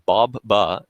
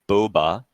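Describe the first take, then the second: First: The first syllable sounds like 'bob'. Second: The first syllable sounds like 'boe'. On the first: The speaker calls it right. "pronounced as Bob Ba" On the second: The speaker calls it wrong. "not Boba"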